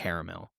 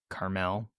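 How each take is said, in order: First: The name is said as caramel. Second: The name is said as Carmel. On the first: The speaker calls it wrong. "I'm pronouncing it wrong... I just say it weird. I say caramel" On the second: The speaker calls it right. "I think they were saying it was Carmel"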